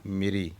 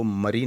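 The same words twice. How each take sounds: First: मेरी said as meri, with a full e; correct pronunciation. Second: मरी said with a short a: mari; wrong pronunciation. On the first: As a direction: say मेरी with a clear e. (सही उच्चारण: मेरी) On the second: (गलत उच्चारण: मरी) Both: Shown as a demonstration. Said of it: "मरी नहीं पढ़ना".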